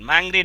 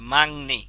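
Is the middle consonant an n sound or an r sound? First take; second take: r sound; n sound. First: The middle consonant is pronounced as an r. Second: The middle consonant is pronounced as an n. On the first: The speaker calls it wrong. "মাংরি না" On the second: The speaker calls it right. "কি হবে? মাংনি।"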